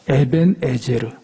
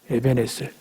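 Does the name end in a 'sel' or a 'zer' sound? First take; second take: zer; sel. First: The name ends with a voiced 'zer' sound. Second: The name ends with a plain 'sel' sound.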